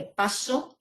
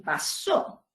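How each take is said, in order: First: "paso" with the stress on PA; stress on first syllable. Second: "pasó" with the stress on SÓ; stress on last syllable. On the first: Teacher showing students the contrast, "paso" stressed on PA. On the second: Teacher showing students the contrast, "pasó" stressed on SÓ. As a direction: punch the final syllable of "pasó". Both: Shown as a demonstration. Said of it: "la sílaba que recibe el énfasis".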